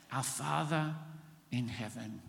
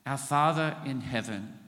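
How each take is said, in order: First: Hushed and reverent, fading on heaven; a softly spoken address to the Father; softer, reverent. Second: Said in the usual way. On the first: Shown as a demonstration. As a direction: let it fall quiet and tender. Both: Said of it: "That's like acknowledging God first".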